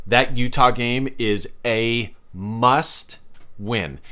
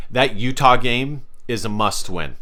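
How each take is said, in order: First: Slow, with "must" stretched and a pause before "win"; emphatic repeat. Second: Said in the usual way. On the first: Real, not acted. Vlogger hammering home to fans a must-win game, slow and emphatic. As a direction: spell it out slowly, leaning on "must", then pause.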